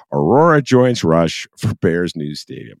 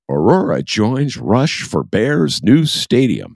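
First: Slower, louder headline read; a lighter take on the anchor voice; newsman voice again, lighter. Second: Slow, high, loud TV anchor read; newsman reading voice. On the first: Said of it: "That's my Bill Curtis voice". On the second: Host mocking a headline in anchor voice, booming newsman read. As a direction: announce it like a veteran newsman. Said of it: "in my best, uh, newsman reading voice". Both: Shown as a demonstration.

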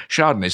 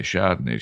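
First: Chardonnay offered for repeating; teaching the word. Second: Low mumbled try at Chardonnay; trying out an unfamiliar word; learner practising. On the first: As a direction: say Chardonnay as if drilling a learner. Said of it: "I'll say it again". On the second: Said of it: "someone in a mill town in the north of England says". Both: Acted.

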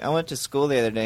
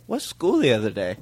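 First: Said in the usual way. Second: Feigned confusion. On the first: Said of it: "Clay will be like". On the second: Retold or imitated. Friends teasing Clay about his remark, feigned confusion. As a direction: ask as if "school the other day" were one word. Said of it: "we act like it's one word".

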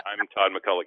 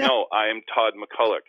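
First: Said in the usual way. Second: Slow, louder, each word pressed; I'm Todd McCulloch said slowly and pointedly; emphatic insistence. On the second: Retold or imitated. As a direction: insist firmly on who you are.

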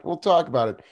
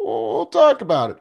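First: Said in the usual way. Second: Playful teasing. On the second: Acted. Teasing repeat of phrase.

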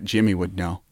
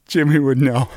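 First: Said in the usual way. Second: Lightly voiced friend, with a laugh; Jimmy voice.

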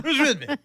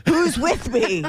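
First: Much higher, laughing through it; laughing mob cry. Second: Rallying the crowd, higher pitch; angry mob leader. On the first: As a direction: echo the rally cry while laughing. Echoed laughing rally cry. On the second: Joking rally cry. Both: Pretend.

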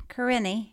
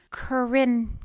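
First: Corinne ending in an EE; sounded final E. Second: Corinne ending on the N; silent final E. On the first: Reader trying a friend's name, Corinne with final EE. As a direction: say Corinne as kuh-RIN-ee. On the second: Reader trying a friend's name, Corinne without the E. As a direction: say Corinne as kuh-RIN, no final vowel. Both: Shown as a demonstration. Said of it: "pronounced the E at the end".

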